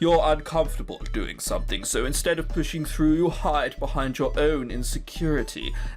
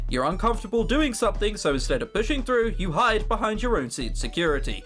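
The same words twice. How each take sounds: First: It is said in an exaggerated aristocratic voice. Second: It is said in his natural voice.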